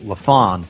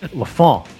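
First: The name is said with a plain English accent. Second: The name is said with a French Canadian accent. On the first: "you can say Mitch LaFon" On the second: "French Montreal Canadian LaFon"

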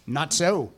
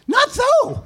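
First: It is said in the ordinary reading voice. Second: It is said in a put-on imitation voice.

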